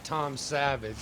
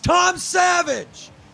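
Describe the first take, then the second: First: The name is said flatly, without excitement. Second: The name is said loudly, with excitement. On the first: The speaker calls it wrong. "It is not" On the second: The speaker calls it right. "exclamation mark"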